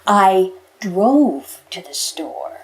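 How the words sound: The word drove carries the main stress.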